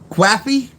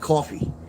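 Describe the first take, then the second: First: The word begins with a 'kw' sound. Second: The word begins with a plain 'k' sound. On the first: "You wrote quaffy" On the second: "I call it coffee. Caw, like cough, with a fee"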